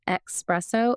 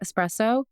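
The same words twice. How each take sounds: First: It begins with an 'ex' sound, like expresso. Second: It begins with an 'es' sound, without 'x'. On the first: The speaker calls it wrong. "gets annoyed when someone says espresso" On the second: The speaker calls it right. "instead of espresso"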